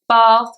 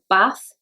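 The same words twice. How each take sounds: First: It is said in a Southern English accent. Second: It is said in a Liverpool accent.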